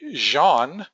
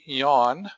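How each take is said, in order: First: The word starts with a sound other than y. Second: The word starts with a clear y sound. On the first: The speaker calls it wrong. "focus sound would be highlighted in red" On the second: The speaker calls it right. "say it correctly"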